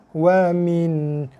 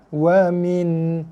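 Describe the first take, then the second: The two takes are said the same way.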